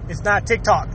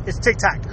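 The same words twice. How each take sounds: First: "TikTok" said the usual way, tick-tock; correct pronunciation. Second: "TikTok" said as tick-tack; joking mispronunciation. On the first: Joking with viewers about the app's name, "TikTok" as tick-tock. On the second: Joking with viewers about the app's name, "TikTok" as tick-tack. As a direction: deliberately botch "TikTok" into tick-tack, lower. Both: Shown as a demonstration. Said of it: "I know how to say it right".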